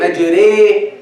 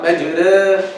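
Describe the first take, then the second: First: The final vowel leans strongly toward i. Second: The final vowel leans less toward i. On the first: The speaker calls it right. "That's imala kubra" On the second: The speaker calls it wrong.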